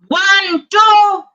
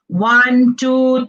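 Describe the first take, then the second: First: The counting is quick, with air thrown fast. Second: The counting is at a normal, moderate volume. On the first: "Whereas projection is quick" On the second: "So when I was normal"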